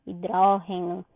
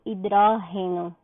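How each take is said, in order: No difference in how they are said.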